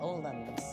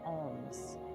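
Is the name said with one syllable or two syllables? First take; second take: two syllables; one syllable. First: The name is said as two syllables. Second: The name is said as one syllable. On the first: The speaker calls it right. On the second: The speaker calls it wrong.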